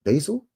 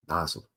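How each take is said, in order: First: BASIL tried out higher, as a rising question; questioning pronunciation. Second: BASIL said low and soft, falling; settled pronunciation. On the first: Host unsure of the actor's name, questioning BASIL. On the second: Host settling the actor's name, low falling BASIL. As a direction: answer yourself with a low, quiet BASIL. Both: Shown as a demonstration.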